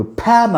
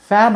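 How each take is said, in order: First: "ఫ్యాన్" as p-hyaan, not fan; aspirated p. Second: "ఫ్యాన్" with f, lip on teeth; English f sound. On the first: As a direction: start "ఫ్యాన్" with a puffed p. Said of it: "ఫ్యాన్ అనాలి". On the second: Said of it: "ఫ్యాన్ అనకూడదు, ఫ్యాన్ అనాలి". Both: Shown as a demonstration.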